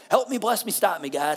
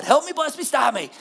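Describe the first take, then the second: First: Said in the usual way. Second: Higher and louder, panicked; hammed-up desperate Help me, bless me, stop me; frantic plea. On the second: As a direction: cry out for rescue in a hurry. Mock emergency prayer, escalating.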